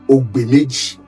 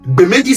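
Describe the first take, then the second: First: The name begins with an 'og' sound. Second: The name begins with a 'b' sound. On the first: The speaker calls it right. "on dit Ogbemeji" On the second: The speaker calls it wrong. "Mais vous parlez de Bemeji. Bemeji, ça veut dire quoi?"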